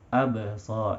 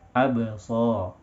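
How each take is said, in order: Both takes have the same delivery.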